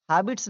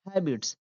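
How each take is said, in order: First: "हैबिट्स" misread as HAA-bits; wrong pronunciation demo. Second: "हैबिट्स" as HAE-bits, open front vowel; correct pronunciation demo. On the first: Teacher shows how not to read habits, mispronounced. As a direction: say "हैबिट्स" with a long aa. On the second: Teacher corrects the reading of habits, correct pronunciation. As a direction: say "हैबिट्स" with ae as in cat. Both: Shown as a demonstration. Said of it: "हैबिट्स नहीं पढ़ेंगे".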